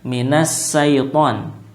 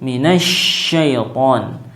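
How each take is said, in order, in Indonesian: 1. Syaiton dimulai dengan bunyi s biasa. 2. Syaiton dimulai dengan bunyi sh. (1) "bukan sin" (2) "huruf shin"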